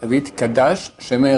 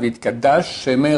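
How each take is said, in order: First: Both sh sounds are pronounced separately. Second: The two sh sounds merge into one. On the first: The speaker calls it right. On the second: The speaker calls it wrong.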